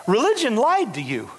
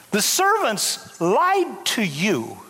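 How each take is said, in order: First: Said in the usual way. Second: "lied" leaned on, slow and deliberate; slow emphatic repeat. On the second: Shown as a demonstration. Preacher to Mephibosheth, slow with "lied" stressed. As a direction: drag out every word, lean on "lied".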